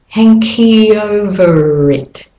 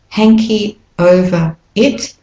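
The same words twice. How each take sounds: First: The words run together smoothly. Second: The words are said separately.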